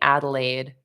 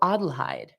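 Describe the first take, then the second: First: It sounds like the English city name Adelaide. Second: It is said with a German pronunciation. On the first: The speaker calls it wrong. "I'm saying Adelaide, like almost like the place in, uh, is it Australia or New Zealand" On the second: The speaker calls it right. "it's the German pronunciation"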